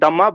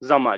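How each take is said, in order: First: The word begins with a d sound. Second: The word begins with a z sound. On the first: This is how the word is spelled. "It is written as दम्मा" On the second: This is how the word is actually pronounced. "But it is pronounced as जम्मा"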